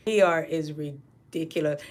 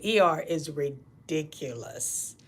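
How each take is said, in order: First: Said in the usual way. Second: "E R is ridiculous" slow, drawn out, quieter; slow emphatic. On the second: Shown as a demonstration. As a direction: drag out "E R is ridiculous" word by word.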